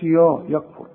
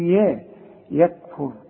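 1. صوت 'ya' ثقيل وغليظ. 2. صوت 'ya' خفيف ورفيع. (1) "ما نقولش يا يكفر" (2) "هنقول يا يكفر"

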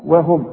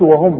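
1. الواو في البداية تُنطق خفيفة ورفيعة جدا. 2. الواو في البداية تُنطق ثقيلة وممتلئة. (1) "هنقول وهم رقة قوي" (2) "ما نقولش وهم بقى"

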